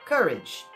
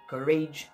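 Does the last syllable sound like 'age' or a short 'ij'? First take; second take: short ij; age. First: The last syllable has a short i sound. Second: The last syllable sounds like the word age. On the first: The speaker calls it right. "você vai pronunciar como se fosse um i curtinho" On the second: The speaker calls it wrong. "se eu falo age aqui eu falo average, courage"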